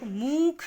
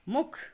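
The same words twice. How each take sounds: First: The u vowel is stretched out long. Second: The u vowel is kept short. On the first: The speaker calls it wrong. "इसको आप मुख नहीं" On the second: The speaker calls it right. "यह है मुख मुख"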